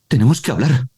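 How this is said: It is said with a surprised tone.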